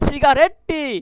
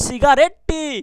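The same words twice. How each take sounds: Both takes have the same delivery.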